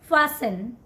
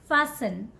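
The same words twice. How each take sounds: First: The T sound is silent in the middle. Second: The T sound is silent in the middle.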